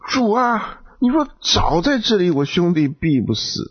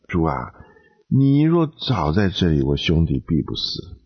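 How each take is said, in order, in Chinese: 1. 语气带着责备和抱怨。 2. 语气温和，带着遗憾。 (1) "他如果要埋怨主，他会怎么讲？" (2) "他如果是很婉转的跟主讲"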